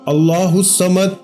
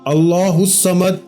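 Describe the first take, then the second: The two takes are said the same way.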